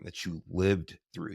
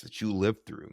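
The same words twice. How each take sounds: First: "lived through" slower, weighted on "lived"; slow emphatic repeat. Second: Said in the usual way. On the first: Real, not acted. Host repeats to Brian, slower and weighted on "lived". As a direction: lean into "lived" to honor the survival.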